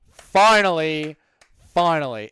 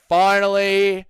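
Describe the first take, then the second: First: Finally dragged out slow with relief; drawn out. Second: Said in the usual way. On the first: Shown as a demonstration. Streamer reading chat, finally drawn out slowly.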